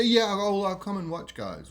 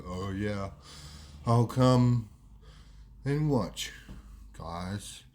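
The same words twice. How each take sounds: First: Said in the usual way. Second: Low, slow drawl with long pauses; Wado's slowed speech. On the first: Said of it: "he say". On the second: Retold or imitated. Slowed mate declining to play footy, slow low drawl. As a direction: drag it out, word by word. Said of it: "He's talking a lot slower than what he used to".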